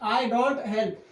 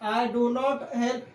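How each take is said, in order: First: Do and not are merged into one short word. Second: Do and not are said as two full words. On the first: "short में हम बोलेंगे" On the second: "ये भी सही रहता"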